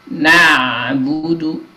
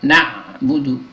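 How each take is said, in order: First: The ain flows smoothly without a hard stop. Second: The ain is cut off with a hard stop. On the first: The speaker calls it right. "agak mengalir" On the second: The speaker calls it wrong.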